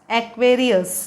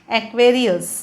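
Both takes have the same delivery.

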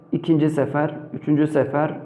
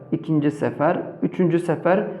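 The two takes are said the same way.

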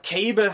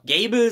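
First: The name starts with a voiceless K sound. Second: The name starts with a voiced G sound. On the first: The speaker calls it right. "Mittlerweile weiß ich, dass er Cable heißt" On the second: The speaker calls it wrong. "ich will immer Gable sagen, weil ich das irgendwann mal falsch mir so beigebracht habe"

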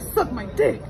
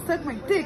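First: It is said forcefully with strong emphasis. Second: It is said plainly with little emphasis. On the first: "Say it with more emphasis" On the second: "Just say"

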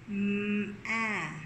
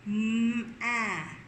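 Both takes have the same delivery.

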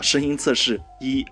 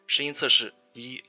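First: The voice is processed to sound lower and deeper. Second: The voice is processed to sound clearer and sweeter. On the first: "沉稳的男生的音色模式…低沉和性感" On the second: "女声模式…可以让声音更清澈和甜美"

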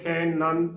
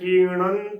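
First: The first vowel is short, like 'i'. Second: The first vowel is long, like 'ee'. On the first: The speaker calls it wrong. "ਜੋ ਕਿ ਗਲਤ ਉਚਾਰਨ ਹੈ" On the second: The speaker calls it right. "ਖੱਖੇ ਨੂੰ ਬਿਹਾਰੀ ਖੀ ਬੋਲਣਾ ਹੈ"

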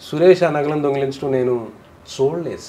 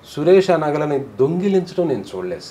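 First: The word చూడలేదు carries the emphasis. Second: The word దొంగిలించడం carries the emphasis. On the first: It was only heard about, not actually seen. "విన్నాడు కానీ చూడలేదు" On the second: He may have handled them, but was not seen stealing. "దొంగిలించడం మాత్రం చూడలేదు"

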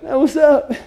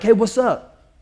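First: It is said in a whining whimpering voice. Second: It is said in a short barking voice.

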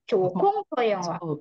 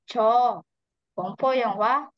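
First: The first word runs straight into the next. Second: There is a pause after the first word. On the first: The first word means 'that', pointing at the film. The speaker calls it right. "dia menempel di kata ininya" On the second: The first word means 'I'. The speaker calls it wrong. "bacanya cho gongpo yang hua salah"

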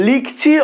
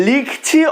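The two takes are said the same way.

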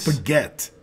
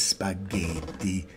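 First: It is said plainly, with an American accent. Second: It is said with an exaggerated Italian accent.

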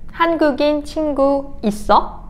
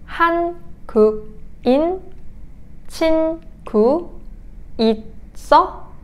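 First: It is said at a normal pace. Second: It is said at a slow pace.

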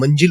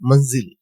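First: The middle consonant is a j sound. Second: The middle consonant is a z sound. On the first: The speaker calls it wrong. "आपण मंजिल म्हणतो मराठी भाषिक" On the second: The speaker calls it right. "खरा उर्दूतला उच्चार आहे मंजिल"

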